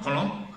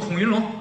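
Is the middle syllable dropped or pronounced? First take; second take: dropped; pronounced. First: The middle syllable is swallowed and dropped. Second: All three syllables are clearly pronounced. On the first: "吃字儿" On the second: "要说孔云龙"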